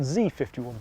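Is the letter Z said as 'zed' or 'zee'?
zee. The letter Z is said as 'zee'. It is the American way of saying it. The speaker calls it wrong. "not Z fifty-one"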